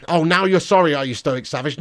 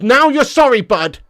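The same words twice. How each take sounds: First: Said in the usual way. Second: High, shouted "now you're sorry"; mocking yell, pitched way up; loud taunt. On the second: Real, not acted. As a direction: throw it back loudly at a cheeky viewer. Repeats taunt much louder, higher.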